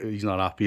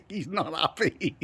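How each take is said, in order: First: Said in the usual way. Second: Slow, higher, through giggles; laughing. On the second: Real, not acted. Teasing Brad about his sulk, words laughed out.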